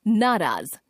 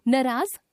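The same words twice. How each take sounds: First: Said in the usual way. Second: नाराज with short "na"; mispronounced first vowel. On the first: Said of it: "शुद्ध". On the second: Shown as a demonstration. Teacher showing a common error, नाराज with short first vowel. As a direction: say नाराज as "nuh-raaz". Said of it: "अशुद्ध".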